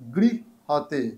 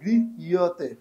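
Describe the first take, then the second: First: It is said without a 'y' after 'h'. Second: It is said with a clear 'y' after 'h'. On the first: The verse is being read continuously. "আমরা যখন continue করব গৃহতে উচ্চারণ হবে" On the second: The word is broken up to pronounce it clearly. "জফলার জায়গায় একটা ইয়র উচ্চারণ আসবে"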